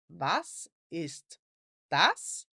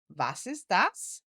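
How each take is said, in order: First: It is said a little more slowly. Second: It is said at a normal speed.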